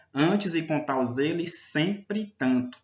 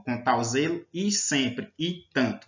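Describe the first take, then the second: First: "zelo e" merged into "zeli", "sempre e" into "sempri"; slow verse reading, "sempre tanto" with the "e" absorbed; joined vowels. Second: "zelo e sempre e tanto" word by word, each "e" separate; slow reading with a full, separate "e" after "zelo" and "sempre"; vowels kept apart. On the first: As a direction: recite slowly, linking "zelo e" as one word. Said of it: "é como se ele não existisse". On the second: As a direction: say "zelo / e" and "sempre / e" unjoined, slowly. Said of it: "você não fala dessa forma". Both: Shown as a demonstration.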